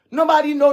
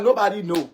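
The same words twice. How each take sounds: First: "Nobody" thrown out higher and louder; louder repeat. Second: Said in the usual way. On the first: Real, not acted. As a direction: raise the voice on the repeat of "Nobody know".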